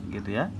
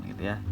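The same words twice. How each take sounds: Both takes have the same delivery.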